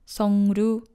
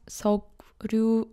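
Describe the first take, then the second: First: The syllables join with an ng then r sound. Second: The syllables join with a k then r sound. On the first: "or Songryu" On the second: "not Seokryu"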